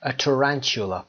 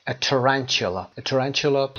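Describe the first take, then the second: First: Said in the usual way. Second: A tarantula spoken slowly, every syllable clear; slow careful model. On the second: Shown as a demonstration. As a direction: say A tarantula slowly so students can copy it. (آهسته و شمرده برای تکرار) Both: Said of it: "اینو یه دور بگیم".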